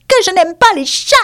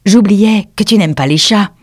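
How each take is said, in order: First: Very high, piercing indignant mouse; shrill, vibrant exclamation. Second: Put-on raised, louder girlish voice; Alice apologising. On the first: A narrator's reading. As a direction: squeal it back in outrage, high and vibrating. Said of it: "s'exclama d'une voix aiguë et vibrante". (voix aiguë et vibrante de souris) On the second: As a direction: exclaim apologetically as a little girl. Alice apologises to frightened mouse. (petite fille confuse qui s'excuse)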